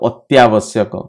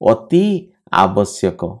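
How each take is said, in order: First: The two words merge into one word. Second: The two words are said separately. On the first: "ଉଚ୍ଚାରଣ କରିଦେଲେ ଅତ୍ୟାବଶ୍ୟକ, ଶୁଣିବା ପାଇଁ ବି ଭଲ ଲାଗିଲା" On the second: "ଆମେ କହୁଛେ ଅତି ଆବଶ୍ୟକ"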